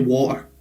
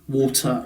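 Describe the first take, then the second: First: The T in the middle is dropped. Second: The T in the middle is clearly pronounced. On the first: "In Scotland, we'll say water, right? So I don't pronounce the T" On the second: "will say water in England. ... You pronounce your T"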